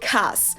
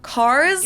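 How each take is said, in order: First: The ending is devoiced and the R is dropped. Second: The ending is voiced and the R is heard. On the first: "if you apply the R rule as well" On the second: "instead of cars"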